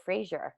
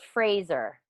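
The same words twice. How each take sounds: First: "Fraser" with a soft zh in the middle; habitual mispronunciation. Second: "Fraser" with a clear z in the middle; corrected pronunciation. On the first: Host shows how they usually say the name, zh pronunciation. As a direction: say "Fraser" like Fray-zher. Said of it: "I do. I say it Fraser". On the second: Host checks the corrected name with friend, careful pronunciation. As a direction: say "Fraser" as phrase plus er, z sound. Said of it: "So it's Fraser". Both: Shown as a demonstration.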